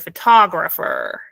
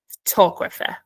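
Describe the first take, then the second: First: It is said in an American accent. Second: It is said in a British accent. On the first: "If you have American accent, you would say" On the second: "if you have British accent, you would say"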